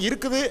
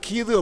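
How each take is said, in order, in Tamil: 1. சுருக்கமான வடிவம் நான்கு அசைகளுடன் சொல்லப்படுகிறது. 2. மிகவும் குறைக்கப்பட்ட வடிவம் இரண்டு அசைகளுடன் சொல்லப்படுகிறது. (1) "மதுரைக்கு செல்கின்ற பொழுது இருக்குது அப்படின்னு சொல்கிறாங்க" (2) "சென்னைக்கு சென்று விட்டால் கீது அப்படிங்கிறாங்க"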